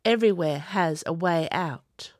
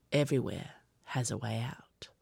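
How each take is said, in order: First: Said in the usual way. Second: Lower, softer, unvoiced whisper; fading whisper. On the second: A narrator's reading. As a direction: say it to yourself, almost gone. Repeats to himself, fading.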